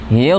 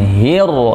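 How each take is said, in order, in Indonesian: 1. Bunyi r langsung ditekan tanpa diayun. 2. Bunyi r ditarik panjang dengan gerakan mengayun. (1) "langsung tekan hir" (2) "bukan hir, jangan diayun"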